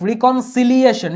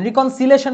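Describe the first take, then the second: First: رিকনসিলিয়েশন said slowly, syllable by syllable; slow spelled-out word. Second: Said in the usual way. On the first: Shown as a demonstration. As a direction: spell out reconciliation slowly for the class. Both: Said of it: "reconciliation না কিন্তু".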